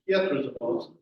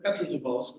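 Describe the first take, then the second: First: The P is followed by a Y sound. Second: The P is followed by a plain E sound. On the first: The speaker calls it right. "all E's in Russian are sort of a Y E, so it's a Y sound" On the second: The speaker calls it wrong. "instead of Petrozavodsk"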